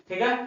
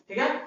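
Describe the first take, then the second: The two takes are said the same way.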